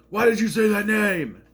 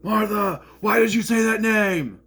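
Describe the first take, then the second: First: Mock anguished cry, high and loud; Heavy Superman impression. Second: Mock anguished shout, high and loud; Heavy Superman impression. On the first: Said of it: "I'm like". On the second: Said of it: "I did that". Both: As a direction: yell it like a tormented hero.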